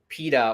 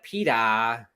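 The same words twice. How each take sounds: First: It is said in the speaker's plain accent. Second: It is said in Meg's Boston accent.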